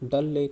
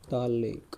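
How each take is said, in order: First: The first vowel is short, like 'dull'. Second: The first vowel is long, like 'daal'. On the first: The speaker calls it right. "डल lake बोलते हैं" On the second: The speaker calls it wrong. "वैसे दाल lake नहीं बोलते इसको"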